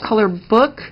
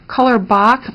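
First: The second part sounds like the word 'book'. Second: The second part does not sound like 'book'. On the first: The speaker calls it right. "it's pronounced color book because the accent over the O makes it pronounced like book" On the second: The speaker calls it wrong. "people call it color book"

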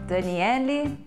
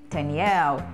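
First: A vowel sound is heard after the final l. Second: The word ends on the l with no vowel.

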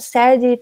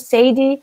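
First: The first vowel sounds like the vowel in 'sad'. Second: The first vowel sounds like the vowel in 'lady'. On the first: The name suggests sadness. "carrega esse significado de tristeza" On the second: The name rhymes but carries no meaning. "rima com Lady"

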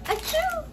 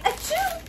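No difference in how they are said.

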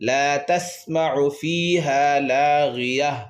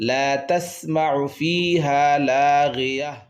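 Both takes have the same delivery.

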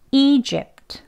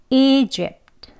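First: The final t sound is clearly released. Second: The same.

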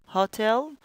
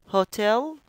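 No difference in how they are said.

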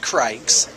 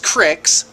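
First: The word has a long vowel, like 'likes'. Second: The word has a short vowel, like 'kicks'. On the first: The speaker calls it wrong. "not Crikes" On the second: The speaker calls it right. "It's Cricks"

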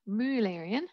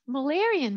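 First: Mullerian is said with a German ü vowel. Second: Mullerian is said with a plain English vowel.

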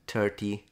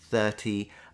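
First: It begins with a sound close to t. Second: It begins with a soft hissing th sound. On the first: "when he says it, it sounds more like 30" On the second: "the TH that you're normally pronouncing with an interdental sound, fricative sound, so like 30"

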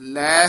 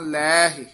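First: The word is said as one short syllable. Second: The word is said with an added 'hi' syllable. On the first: The speaker calls it wrong. "ਲੈ ਨਹੀਂ ਕਹਿਣਾ" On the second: The speaker calls it right.

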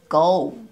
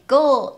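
First: The vowel is long and glides downward. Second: The vowel is short and flat. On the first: The speaker calls it right. "上から上がって下に下がる" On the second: The speaker calls it wrong. "go ではなくgo"

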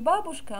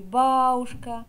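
First: It is said with standard Russian pronunciation. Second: It is said with northern Arkhangelsk dialect pronunciation. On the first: "не бабушка" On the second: "а мы говорили бабушка"

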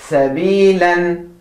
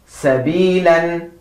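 Both takes have the same delivery.

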